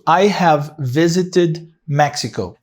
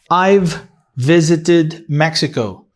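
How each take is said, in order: First: I have is said as two full words. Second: I have is shortened to one syllable. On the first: "in I have" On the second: "I could make this short. I could say I've"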